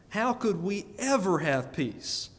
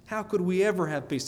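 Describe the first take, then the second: First: Measured plea with "ever" punched; emphatic rhetorical question. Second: Brisk run through "How could we ever have peace?"; quick repeated question. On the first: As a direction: draw out the question, leaning on "ever". Preacher puts rhetorical question emphatically. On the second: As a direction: toss the question out fast. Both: Real, not acted.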